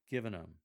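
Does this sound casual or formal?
casual. It sounds casual and conversational. "for a more informal and conversational feeling"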